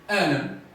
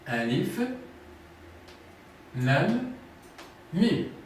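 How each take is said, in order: First: The letters are blended into one word. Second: Each letter name is said separately. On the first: The speaker calls it wrong. "ce n'est pas alam" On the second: The speaker calls it right. "ils se prononcent séparément par lettres"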